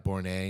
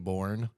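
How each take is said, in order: First: The name is said as two syllables. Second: The name is said as one syllable. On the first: This is how the person chose to be called. "went by Bournay" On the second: This is how the written name looks. "last name was clearly Bourne"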